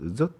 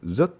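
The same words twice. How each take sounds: First: It is said with a northern Vietnamese accent. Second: The same.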